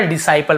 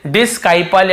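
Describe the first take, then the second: First: डिसाइपल with plain S, no K; silent-C pronunciation. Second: डिस्काइपल with a sounded K after the S; wrong hard-C pronunciation. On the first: Teacher giving students the correct reading, डिसाइपल without K. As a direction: say डिसाइपल as di-sai-pal, C silent. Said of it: "केवल डिसाइपल पढ़ रहे हैं". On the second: Teacher showing the reading to avoid, डिस्काइपल with a K. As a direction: say डिस्काइपल, voicing the silent C as K. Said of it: "या डिसाइपल ऐसे ही". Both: Shown as a demonstration.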